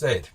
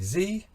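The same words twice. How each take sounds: First: The letter is said the British way. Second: The letter is said the American way. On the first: Those regions did not say it this way. "not Z" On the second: Some old English regions said it this way. "those people down there did in fact say Z"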